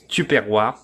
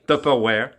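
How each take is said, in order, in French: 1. Le mot se prononce à la française. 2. Le mot se prononce à l'anglaise. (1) "est devenu par la prononciation en France Tupperware" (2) "le vrai nom de ça, c'est Tupperware. C'est un nom anglais"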